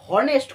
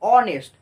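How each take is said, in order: First: The word begins with an h sound. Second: The word begins with a vowel sound. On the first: The speaker calls it wrong. "হনেস্ট করছি না" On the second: The speaker calls it right. "আমরা vowel বা স্বরবর্ণের উচ্চারণ করছি"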